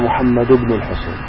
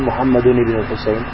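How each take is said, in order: First: Muhammad ends without an added n sound. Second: Muhammad ends with an added n sound. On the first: The speaker calls it right. "لا تنون بين الاسم وبن" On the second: The speaker calls it wrong. "لا تقول محمد بن الحسين"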